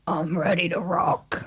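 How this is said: It is said in a deep, low voice.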